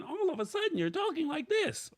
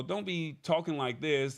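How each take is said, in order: First: Squeaky-high demo of inconsistent speaking; sudden jump in voice. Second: Said in the usual way. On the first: Shown as a demonstration. Showing viewers what not to do, sudden high voice. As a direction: abruptly leap into a very high pitch. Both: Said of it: "at a consistent volume".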